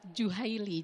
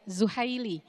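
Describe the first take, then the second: First: The name starts with a j sound. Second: The name starts with a z sound. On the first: The speaker calls it wrong. "Tadi kalau tidak salah Wahbah Juhaili jadinya" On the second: The speaker calls it right. "menyampaikan Duktur Wahbah Zuhai, Zuhaili ya"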